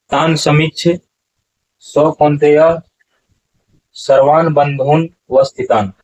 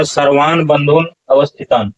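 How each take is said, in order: First: व स्थितान split off, slow; wrong pronunciation demo. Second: अवस्थितान kept as one word; correct pronunciation demo. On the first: Teacher recites the common wrong reading for students. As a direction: read बंधून व स्थितान with the wrong break. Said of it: "ऐसा उच्चारण नहीं होगा". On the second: Teacher gives students the right reading. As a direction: say बंधून अवस्थितान with अवस्थितान joined. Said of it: "उच्चारण होगा". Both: Shown as a demonstration.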